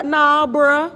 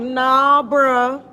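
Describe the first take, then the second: First: Louder, pointed Nah with a rising bruh; firmer dismissal. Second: Flat, louder brush-off with a lifted bruh; dismissive. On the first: Insisting to her uncle it is still sugar, pointed dismissal. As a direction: lean in and refuse to buy it. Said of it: "but I". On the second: Telling her uncle Diet Coke is still sugar, dismissive. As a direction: shut him down, not having it. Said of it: "I'm like". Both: Retold or imitated.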